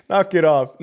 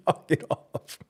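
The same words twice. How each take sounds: First: Said in the usual way. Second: Breathy whisper through a laugh. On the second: Real, not acted. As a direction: hush it out while still laughing.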